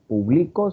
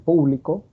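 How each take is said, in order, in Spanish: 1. El acento está en la segunda sílaba. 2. El acento está en la primera sílaba. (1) "No decían" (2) "sino decían"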